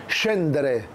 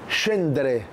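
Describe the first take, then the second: The two takes are said the same way.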